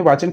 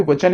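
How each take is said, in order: First: वाचन with a long first "aa"; mistaken pronunciation. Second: वचन with a short first vowel; corrected pronunciation. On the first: Teacher quoting her own slip, वाचन with long first vowel. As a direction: stretch the first vowel, vaa-chan, in वाचन. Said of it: "यहाँ पे वचन है". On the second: Teacher correcting her own misreading, वचन with short first vowel. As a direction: say वचन with short, unstressed-sounding "va". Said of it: "हमने वाचन कह दिया". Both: Shown as a demonstration.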